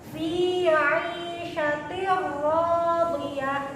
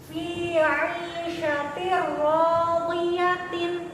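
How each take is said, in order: First: The last word ends in a soft h sound. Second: The last word keeps its full -tin ending. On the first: The reader stops on this word. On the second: The reading continues without stopping.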